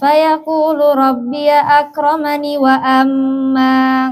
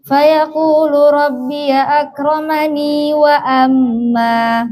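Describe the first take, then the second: First: Akramani ends without the added 'ee' sound. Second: Akramani ends with an added long 'ee' sound. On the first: "yang kedua tanpa ya" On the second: "Yang dengan ya"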